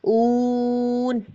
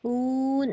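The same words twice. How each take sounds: First: The syllable is said loudly and strongly. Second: The syllable is said softly and weakly. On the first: The speaker calls it right. "बुलंद आवाज़ से पढ़ना" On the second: The speaker calls it wrong. "ऐसे नहीं पढ़ना"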